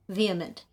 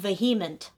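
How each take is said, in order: First: The word is said with a silent middle 'h'. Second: The word is said with a sounded middle 'h'. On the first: The speaker calls it right. "Yes, that's how I say it" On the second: The speaker calls it wrong. "This person said vehement"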